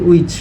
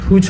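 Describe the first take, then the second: First: The word begins with no h sound. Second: The word begins with an audible h sound. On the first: The speaker calls it right. "এটা হবে উইচ। এই H এর উচ্চারণটা silent হবে" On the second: The speaker calls it wrong. "এটা not হুইচ হবে"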